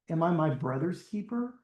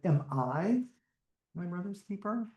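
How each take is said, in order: First: The stress is on the word brother's. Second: The stress is on the word I.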